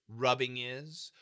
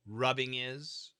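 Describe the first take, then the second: No difference in how they are said.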